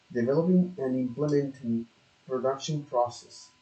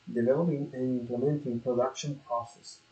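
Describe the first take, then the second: No difference in how they are said.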